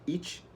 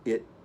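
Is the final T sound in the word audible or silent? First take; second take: audible; silent. First: The final T is clearly pronounced. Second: The final T is nearly silent. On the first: The speaker calls it wrong. "Muitos brasileiros falam it, não é it, isso não funciona" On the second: The speaker calls it right. "O T fica bem mudo. É it"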